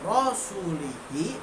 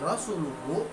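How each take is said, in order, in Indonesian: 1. Suku kata akhirnya memakai vokal i. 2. Suku kata akhirnya memakai vokal u. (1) "dipelintir menjadi rasulihi" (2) "dibaca secara benar sebagai rasuluhu"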